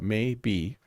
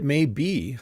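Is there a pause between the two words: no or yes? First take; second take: yes; no. First: There is a pause between the two words. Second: The two words run together without a pause. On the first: The speaker calls it wrong. "people don't actually say it the way I just said it" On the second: The speaker calls it right. "We don't pause when we have two words"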